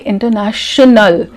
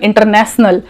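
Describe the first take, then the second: First: The middle consonant is a hushing 'sh'. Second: The middle consonant is a hissing 's'. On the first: The speaker calls it right. "then say international" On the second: The speaker calls it wrong. "If you are also having this problem"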